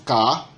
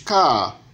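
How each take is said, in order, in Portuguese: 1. O tom permanece alto do início ao fim. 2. O tom sobe e depois cai bruscamente. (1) "o tom alto" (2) "o tom cadente"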